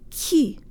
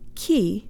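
First: The k is released with more air. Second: The k is released with little air. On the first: The speaker calls it right. "Put more air through on the ka, ... but ki" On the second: The speaker calls it wrong. "not ki"

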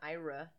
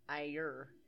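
First: It sounds like two syllables, eye-ruh. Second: It sounds like one syllable, eyer. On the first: The speaker calls it wrong. "Not Ira" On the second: The speaker calls it right.

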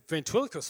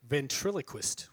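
First: The word is said at normal speed. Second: The word is said more slowly.

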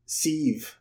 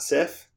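First: The name ends with a v sound. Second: The name ends with an f sound.

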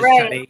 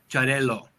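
First: The middle consonant sounds like a Y. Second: The middle consonant is a hard, long L. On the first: "two L's together are a Y sound" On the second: "it's a harder L"

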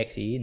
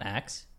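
First: It is spelled out as separate letters. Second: It is said as the single word axe. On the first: It is read as an acronym. "It's an acronym" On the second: It is read as an ordinary word. "Why would you say the word that it is"

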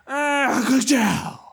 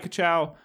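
First: It is said loudly as a huge exclamation. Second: It is said casually and flat, in passing.

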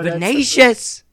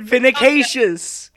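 First: The word has no extra syllable in the middle. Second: The word has an extra syllable in the middle. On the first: The speaker calls it right. "it looks how it sounds" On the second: The speaker calls it wrong. "Why are you trying to pronounce it vinicacious?"

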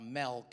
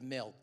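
First: The word is said with a California accent. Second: The word is said without a California accent.

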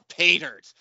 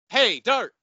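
First: The stress falls on the word pay. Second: The stress falls on the word dirt. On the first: The speaker calls it right. "he even gave him the reading" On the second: The speaker calls it wrong. "You don't put the emphasis on dirt"

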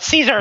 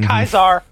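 First: The name begins with a soft s sound. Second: The name begins with a hard k sound. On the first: The speaker does not belong to the Legion. "If they say it Caesar, they're not" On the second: The speaker belongs to the Legion. "If they say it Kaiser, they're part of the Legion"

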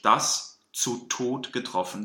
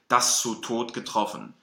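First: The s and z are cleanly separated. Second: The s and z are blended together. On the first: The speaker calls it right. "Wir müssen wirklich absetzen und uns die Zeit nehmen" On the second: The speaker calls it wrong. "dass es eben nicht ein verwaschenes Wort wird. Dass es nicht wird"

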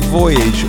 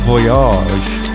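First: The word is pronounced in a plain everyday way. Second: The word is pronounced in a posh way.

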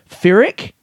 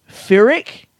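The two takes are said the same way.

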